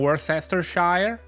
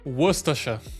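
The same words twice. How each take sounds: First: It is said with an American pronunciation. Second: It is said with an English pronunciation. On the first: The speaker calls it wrong. "Amerykańcy mówią Worcestershire" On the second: The speaker calls it right. "To jest, moi drodzy, Worcestershire"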